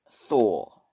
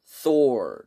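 First: "Thor" with the R dropped, like "Thaw"; British "Thor", silent R; British pronunciation. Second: "Thor" with the R sounded, American style; American "Thor", R pronounced; American pronunciation. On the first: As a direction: say "Thor" ending on an open vowel, no R. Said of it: "But in British, it's". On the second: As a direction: say "Thor" ending on an audible R. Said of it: "they say in America". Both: Shown as a demonstration.

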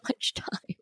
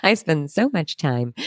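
First: Breathy unvoiced whisper of the words. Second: Said in the usual way. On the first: Shown as a demonstration. Confiding to listeners, whispered aside. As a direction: breathe it out as a secret. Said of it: "whispered take first". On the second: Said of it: "repeats the phrase plainly".

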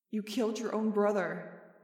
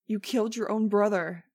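First: Echoing memory. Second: Loud accusing scream. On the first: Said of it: "Jeb's horrifying words echoed in my head". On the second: Jeb screaming at Max as she flees, loud. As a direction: scream the accusation after her. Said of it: "He was screaming at me". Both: A narrator's reading.

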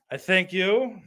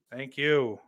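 First: Higher, hammed-up showman thank-you; milk the applause; mock grand thanks. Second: Said in the usual way. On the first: Mock bow after a joke.

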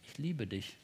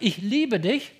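First: Much lower and softer, intimate; tender whisper-soft. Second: Rising, louder declaration of love; declared love. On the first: Preacher models telling God this, softly and tenderly. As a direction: breathe it quietly like a confession. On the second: Preacher urges the listener to tell God this, boldly. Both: Shown as a demonstration. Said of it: "zu dem Gott sagt".

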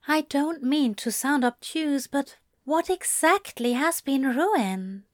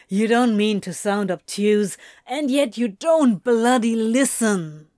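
First: An angel gently puzzling over the complaint; gentle question. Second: Throwing the words back, a bit louder; sarcastic and exasperated; a touch of bitter mimicry of the angel; mocking echo. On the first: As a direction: ask it kindly, careful not to offend. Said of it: "Zira asked gently". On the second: Crowley throws Zira's words back. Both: A narrator's reading.

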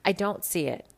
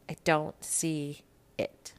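First: Said in the usual way. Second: Slow, unvoiced whisper of disbelief; whispered repeat of her own disbelief. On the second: Real, not acted. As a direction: breathe it out slowly, barely voiced.

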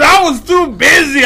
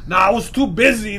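First: Brother's excuse shouted back, louder and higher; retelling the brother's lame excuse, hammed-up loud and high; mock shout. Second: Imitating brother. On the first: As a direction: yell the excuse like retelling it in disbelief. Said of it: "he goes". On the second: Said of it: "And Eddie goes".

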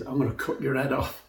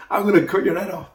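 First: Quiet threat. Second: Fast, louder battle threat; fighting talk. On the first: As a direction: promise it softly, like a calm warning. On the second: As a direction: fling it at him as a fierce challenge. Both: Retold or imitated. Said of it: "That's fighting talk".

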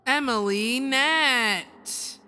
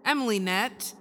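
First: Slow, loud winner announcement; drumroll announcer. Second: Said in the usual way. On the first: Shown as a demonstration. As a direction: draw the name out like a reveal. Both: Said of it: "Drum roll".

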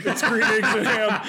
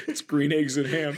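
First: Higher, louder, laughing through it; laughing mock cheer. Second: Said in the usual way. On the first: Joking quote to Dr Seuss.

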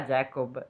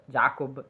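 First: Jacob said the English way, JAY-kob. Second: Said in the usual way. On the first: Shown as a demonstration. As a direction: Jacob with an English 'e' vowel. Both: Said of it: "nel mio era Jacob".

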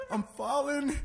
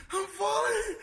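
First: Higher-pitched retold worry; mock panic. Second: Very high drawn-out wail; escalated mock panic. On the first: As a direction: imitate her alarmed first cry. Sister's panic acted again. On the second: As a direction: imitate her squealing in panic. Sister's panic acted again, escalating.

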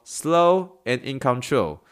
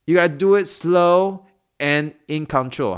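First: Slow, deliberate teacher read of "Slow and in control."; teaching phrase. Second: Slow, emphatic coaching line, "do" stressed; coaching demo. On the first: Teaching therapists the phrase: slow, deliberate demo. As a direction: say "Slow and in control." slowly with weight on "slow". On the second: Coaching a patient through a move: slow, emphatic. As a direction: coach a patient: "you gotta do it slow and in control", slow and firm. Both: Shown as a demonstration. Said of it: "怎么说".

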